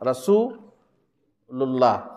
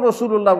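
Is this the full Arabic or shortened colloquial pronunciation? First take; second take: full Arabic; shortened colloquial. First: It is said fully, with Arabic long vowels. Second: It is said in a shortened, colloquial way. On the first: The speaker calls it right. "তখন বলতে হবে রাসূলুল্লাহ" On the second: The speaker calls it wrong. "রসুল্লাহ বললে হবে না"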